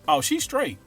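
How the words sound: The pitch fluctuates a little.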